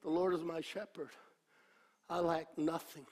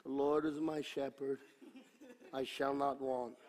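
First: Soft, quick, heartfelt saying of the psalm; sincere meditation. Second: Soft, low, dismissive rote reading; careless reading. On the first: Preacher showing how to meditate on the psalm, sincerely. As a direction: speak it to yourself and mean it. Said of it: "This is how you meditate". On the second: How the devil wants you to read scripture, dismissively. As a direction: read it as if it means nothing. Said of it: "the devil wants you to read it like this". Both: Shown as a demonstration.

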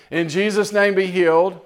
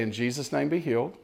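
First: Higher and louder "In Jesus' name, be healed"; bold declaration. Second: Soft, quiet, unforced "In Jesus' name, be healed"; gentle relaxed prayer. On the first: Preacher urging the congregation to pray and step aside, loud declaration. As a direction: proclaim "be healed" with force. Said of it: "Get out of the way". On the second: Preacher showing the congregation a calm, quiet healing prayer. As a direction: say "be healed" softly, no strain at all. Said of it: "which is just say". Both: Shown as a demonstration.

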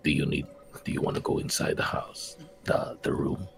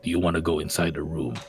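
First: Hushed, breathy unvoiced whisper; very soft, halting whispered question. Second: Low, soft, half-voiced murmur; hushed, lightly voiced stage whisper. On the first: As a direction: whisper it secretively to a companion. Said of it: "and then whisper to him". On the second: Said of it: "but I am whispering it".

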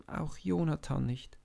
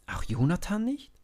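First: Said in the usual way. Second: High, rising disbelief; can't believe it, ask high; disbelieving question. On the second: A narrator's reading. Young David doubting that even Jonathan dares not fight, astonished.

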